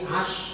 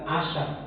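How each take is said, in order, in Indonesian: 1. Konsonan akhir berakhir bersih tanpa vokal gema. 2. Konsonan akhir dilepas dengan vokal gema. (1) "Tapi ash, gitu kan. Karena huruf shin itu bukan huruf qalqalah" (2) "bukan asher"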